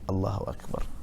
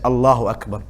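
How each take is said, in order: First: It is said very softly. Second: It is said at normal loudness.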